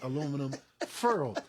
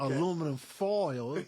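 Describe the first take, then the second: First: Foil is said with an 'er' vowel. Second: Foil is said with a standard 'oy' vowel.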